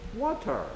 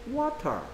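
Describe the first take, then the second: First: It is said in a British accent. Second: It is said in a British accent.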